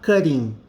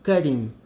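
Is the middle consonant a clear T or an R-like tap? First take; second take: R-like tap; R-like tap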